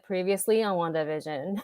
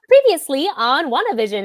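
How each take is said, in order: First: Wanda's line is said tired and flat. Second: Wanda's line is said with lively energy.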